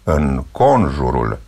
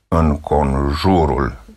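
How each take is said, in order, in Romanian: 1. Accentul cade pe a doua silabă. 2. Accentul cade pe a treia silabă. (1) "Punem accentul pe a doua silabă ... Deci corect" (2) "și nu pe a treia"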